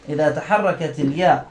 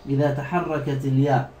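No difference in how they are said.

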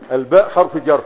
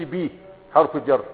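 First: "الباء" said as the full letter name, al-baa; letter called by name. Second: "بي" said as the bare sound bee; letter called by sound. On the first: Teacher modelling how to mention a one-letter word, by its name. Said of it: "تقول إيه؟ الهمزة". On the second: Teacher showing what not to say, the bare sound for the letter. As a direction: give only the letter's sound, "بي", without its name. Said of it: "ما تقولش". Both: Shown as a demonstration.

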